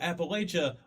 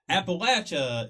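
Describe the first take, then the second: First: It is pronounced the way outsiders say it. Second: It is pronounced the way locals say it. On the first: The speaker is not from the region. The speaker calls it wrong. "people that argue Appalachia are never from here" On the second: The speaker is from the region. The speaker calls it right. "is how it should be pronounced"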